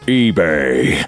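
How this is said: It is said in a deep Optimus Prime voice.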